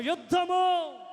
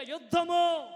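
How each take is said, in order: First: Very high loud shouted యుద్ధము; even louder shout. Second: High loud shouted యుద్ధము; louder shout. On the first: Preacher pushing the congregation for more, full shout. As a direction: give it everything on యుద్ధము. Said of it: "ఇంకొంచెం". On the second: Preacher urging the church to call louder, loud shout. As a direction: shout it out, stronger. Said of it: "గట్టి గట్టిగా". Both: Real, not acted.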